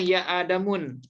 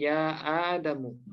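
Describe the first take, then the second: First: The name ends with an added n sound. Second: The name ends on a short u vowel. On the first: The speaker calls it wrong. "nggak boleh ya Adamun" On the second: The speaker calls it right. "tapi ya Adamu"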